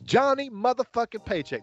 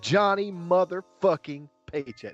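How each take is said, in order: First: The ending is relaxed, with the final G dropped. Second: The ending is emphasized, with the final G pronounced. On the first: "That's lax" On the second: "there's emphasis on that. It means a little bit more when you stick that G in there"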